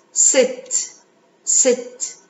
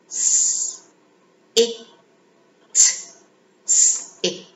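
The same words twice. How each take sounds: First: S and it joined into one smooth word "sit"; blending. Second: S and it said as separate sounds, slowly; sounding out. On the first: Teacher blending the sounds for children, smooth and drawn out. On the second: Teacher sounding out letters for children, slow and separate. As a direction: break "sit" into s and it, one sound at a time. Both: Shown as a demonstration. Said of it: "let's read the word together".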